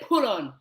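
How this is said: The t is softened so it sounds like pull-on. "they say put on"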